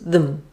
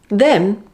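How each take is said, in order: First: The word is said in its reduced weak form. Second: The word is said in its full strong form.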